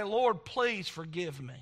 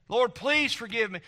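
First: Slow, subdued plea to God; retold prayer of repentance. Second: Firmer, more insistent plea to God; retold prayer of repentance. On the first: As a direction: plead slowly and humbly for forgiveness. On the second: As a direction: press the plea for forgiveness with preacher's force. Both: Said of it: "had to go to Jesus and".

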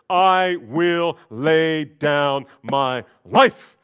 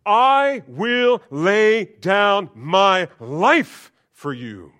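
First: Slow, much louder proud vow; drawn-out swaggering promise; chest-puffing boast. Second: Slow, much louder, higher proud vow; drawn-out boastful declaration; Peter's boast. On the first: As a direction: puff up and proclaim it. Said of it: "Puffs up his chest". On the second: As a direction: stretch it out like a bold promise. Peter boasting, voiced loud. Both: Acted.

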